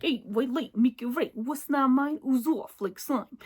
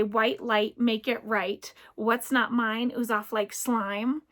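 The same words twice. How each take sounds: First: A light, playful Brooklyn accent on the rhyme. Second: Said in the usual way. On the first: Shown as a demonstration. Showing viewers a funny voice for the rhyme, playful Brooklyn accent. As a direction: say it like a fun Brooklyn guy, lightly. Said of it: "I love the Brooklyn". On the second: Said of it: "I made up a rhyme, and I say".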